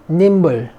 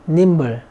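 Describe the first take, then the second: Both takes have the same delivery.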